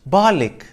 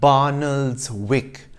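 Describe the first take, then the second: First: The name is said with two syllables. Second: The name is said with three syllables. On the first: The speaker calls it right. "actually pronounced Barlick" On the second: The speaker calls it wrong. "you might think is pronounced Barnoldswick based on its spelling"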